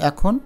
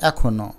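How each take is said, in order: First: এখন as 'ae-khon'; bare n ending এখন; final consonant closed. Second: এখনও as 'ae-kho-no'; final vowel voiced. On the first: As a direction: stop on the ন of এখন. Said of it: "হসন্ত না দিবে". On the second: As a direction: end এখনও on a clear 'o'. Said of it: "হসন্ত না দিলে". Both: Shown as a demonstration.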